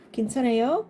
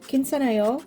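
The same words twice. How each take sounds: First: The voice rises at the end like a question. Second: The voice falls at the end like a statement. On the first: The speaker is asking if someone is okay. "It means more like are you okay?" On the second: The speaker is saying they are okay. "it means like I'm okay"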